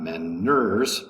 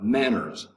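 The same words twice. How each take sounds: First: The stress is on the second syllable. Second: The stress is on the first syllable. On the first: The speaker calls it wrong. "not manners" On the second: The speaker calls it right. "The first um, syllable is going to be accented"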